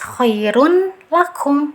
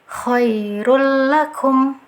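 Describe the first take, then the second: First: The n is pronounced clearly before the l. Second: The n merges into l without nasal hum. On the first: The speaker calls it wrong. "dibaca jelas" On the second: The speaker calls it right. "jangan sampai ada dengungan"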